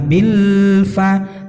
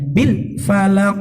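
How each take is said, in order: First: The phrase is drawn out too long. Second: The phrase is rushed and over-articulated. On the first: "jangan terlalu lama" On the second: "jangan terlalu cepat atau jangan terlalu over jelasnya"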